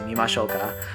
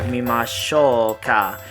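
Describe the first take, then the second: First: It is said at a natural, flowing pace. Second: It is said in a careful, deliberate way. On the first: The speaker calls it right. "Just say it naturally" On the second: The speaker calls it wrong. "don't say it like that though"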